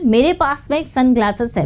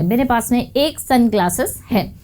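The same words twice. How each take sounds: First: Said in the usual way. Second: "एक" picked out from the sentence; stress on एक. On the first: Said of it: "जिससे अगर आपको बोलना हो". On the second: Shown as a demonstration. Teacher repeating the example to point out the clash, stressing "एक". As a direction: lean on "एक" before "sunglasses". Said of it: "एक तरफ तो आप एक बोल रहे हैं".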